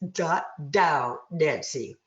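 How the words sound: It is said with denasal, blocked-nose resonance.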